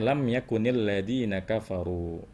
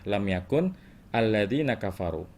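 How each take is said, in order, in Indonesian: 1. Yakun tersambung ke kata berikutnya dengan -il. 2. Yakun berakhir dengan bunyi berhenti sebelum alladzina. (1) "Kalau kita mau wasal, kita mau sambungkan"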